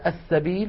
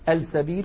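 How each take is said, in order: First: The L is merged into a doubled S. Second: The L is clearly pronounced before the S. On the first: The speaker calls it right. "والسين من كلمة سوء مثلا السبيل" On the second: The speaker calls it wrong. "ولا نقول السبيل"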